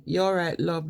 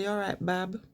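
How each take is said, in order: First: Said in the usual way. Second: "You all right, bab?" said softer in a Brummie lilt; a soft Birmingham greeting. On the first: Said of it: "instead of saying". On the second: Shown as a demonstration. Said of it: "they say".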